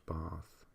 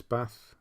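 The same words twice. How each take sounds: First: Bath said softly with a long "ah", bahth; long-vowel bath. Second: Bath with a short "a", as in cat; short-vowel bath. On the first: Comparing how words are said, bath with a long "ah". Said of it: "If it's bath". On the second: Comparing how words are said, bath with short "a". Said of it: "it's bath". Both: Shown as a demonstration.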